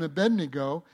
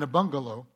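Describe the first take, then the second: First: The name is said as a-BED-ne-go. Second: The name is said as a-BUN-ga-lo. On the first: The speaker calls it right. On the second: The speaker calls it wrong.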